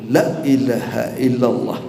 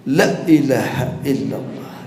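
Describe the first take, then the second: No difference in how they are said.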